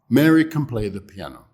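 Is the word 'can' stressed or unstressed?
unstressed. The word can is weak and unstressed. "the can is, is pretty weak. It's not really stressed at all"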